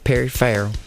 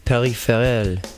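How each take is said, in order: First: The name is pronounced the Southern US way. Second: The name is pronounced the French way. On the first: "if you're from the South, you might say" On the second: "if you're French, you're going to say"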